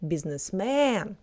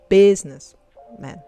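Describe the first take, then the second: First: The stress falls on a different, Russian-style vowel. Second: The stress falls on an English-style vowel. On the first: The speaker calls it right. "We say businessman" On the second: The speaker calls it wrong. "instead of businessman"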